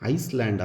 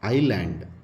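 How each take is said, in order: First: The word is said with an s sound. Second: The word is said with no s sound. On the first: The speaker calls it wrong. "ಐಸ್ಲ್ಯಾಂಡ್ ಅಲ್ಲ ಇದು" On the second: The speaker calls it right. "ಎಸ್ is getting silent"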